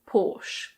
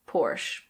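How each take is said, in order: First: It is said in a British accent. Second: It is said in an American accent. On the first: "In British English, it's Porsche" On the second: "In American English, it's similar, but the R is pronounced"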